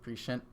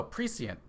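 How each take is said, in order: First: Prescient said presh-ent, sh sound; correct prescient. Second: Prescient said pree-see-ent, s sound with the i as in see; misread prescient. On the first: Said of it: "that is probably the way you're supposed to say it". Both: Shown as a demonstration.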